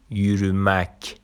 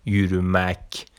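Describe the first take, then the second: No difference in how they are said.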